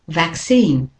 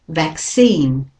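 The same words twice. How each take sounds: First: The stress is on the second syllable. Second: The stress is on the second syllable.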